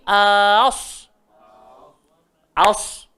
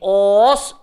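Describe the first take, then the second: First: The opening vowel sounds light, like a. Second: The opening vowel sounds heavy, like o. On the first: The speaker calls it right. "so bunyi dia mesti jadi as as" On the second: The speaker calls it wrong. "jangan bunyi os, waman os, salah"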